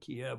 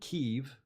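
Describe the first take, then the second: First: The name sounds like 'Kee-ev', with two syllables. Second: The name sounds like 'Keev', nearly one syllable. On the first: This is the older pronunciation taken from Russian. "we used to say" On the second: This is the Ukrainian pronunciation. "as I've understood the pronunciation in Ukrainian as opposed to Russian"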